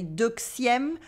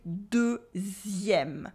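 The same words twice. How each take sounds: First: Deuxième said wrongly as duksième with a KS; wrong X sound. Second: Deuxième said slowly with a Z sound. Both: Shown as a demonstration. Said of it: "X sound like a Z sound".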